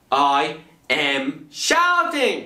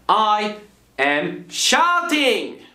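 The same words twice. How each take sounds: First: Said in the usual way. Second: Demo shout. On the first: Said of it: "I was shouting". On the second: Shown as a demonstration. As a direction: belt it out to show shouting.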